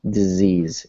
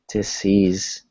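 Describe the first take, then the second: First: The middle consonant is a buzzing Z sound. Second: The middle consonant is a hissing S sound. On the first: The speaker calls it right. "It's more like disease. It's a Z" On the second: The speaker calls it wrong. "instead of sounding like S, like disease"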